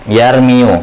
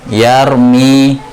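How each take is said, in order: First: The word ends with an added 'u' vowel. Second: The word ends on the 'i' sound, no final vowel. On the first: This is the underlying form, too heavy to say. The speaker calls it wrong. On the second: This is how the word is actually read. The speaker calls it right. "maka dibaca yarumi"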